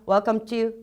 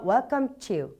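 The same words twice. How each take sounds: First: It is read flatly, without real welcoming feeling. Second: It is read warmly, with real welcoming feeling. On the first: The speaker calls it wrong. "그냥 welcome to 이렇게 읽지 말고요" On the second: The speaker calls it right. "정말 내가 웰컴을 한다는 그런 느낌을 갖고"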